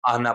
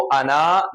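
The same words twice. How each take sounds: First: आना read as "ana" with a short final na, alif silent; आना ending on a quick, unstretched "na"; correct short reading. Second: अना with the final alif drawn out long; अना said with a long "naa" at the end; wrong long-vowel reading. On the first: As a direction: keep the last vowel of आना brief. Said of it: "हम इसको आना पढ़ेंगे". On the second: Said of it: "हम इसको अना नहीं पढ़ेंगे". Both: Shown as a demonstration.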